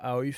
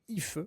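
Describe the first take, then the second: First: The name begins with an 'ah-o' sound. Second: The name begins with an 'ee' sound. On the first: The speaker calls it wrong. "ça se prononce pas Aoif" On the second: The speaker calls it right. "c'est Ife"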